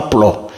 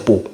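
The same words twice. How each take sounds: First: The ending said "plo", with the L sounded; a short "plo" with a clear L; wrong syllable "plo". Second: The ending said "po", no L after the P; short "po" without an L; correct syllable "po". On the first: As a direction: show the faulty "plo" for "plat". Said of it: "c'est pas plat". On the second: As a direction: give "pour" as a bare "po". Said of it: "c'est pour". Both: Shown as a demonstration.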